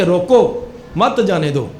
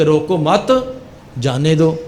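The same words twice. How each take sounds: First: "روکو", a clear stop, then "مت جانے دو"; pause after روکو. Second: "روکو مت" run together, pause, then "جانے دو"; pause after مت. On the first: Officer corrects the guard's reading, pausing after "روکو". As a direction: break after "روکو" so "مت جانے دو" forbids passage. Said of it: "لیکن وقف کرنے اور نہ کرنے". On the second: Guard defends his reading of the note, pausing after "مت". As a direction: break after "مت" so "روکو مت" means don't stop. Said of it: "کہ اس کو روکنا نہیں جانے دو". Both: Shown as a demonstration.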